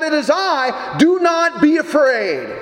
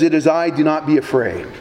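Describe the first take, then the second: First: Called out across the water, slow on the last words; crying out. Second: Said in the usual way. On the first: Acted. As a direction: shout it over the waves, firm not frantic. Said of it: "He just simply cried out". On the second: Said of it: "And Jesus says".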